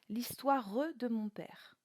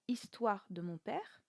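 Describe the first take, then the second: First: The final e of histoire is pronounced. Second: The final e of histoire is silent. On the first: The speaker calls it right. "mais bien ... soit trois syllabes pour le mot histoire" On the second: The speaker calls it wrong. "on ne dira pas"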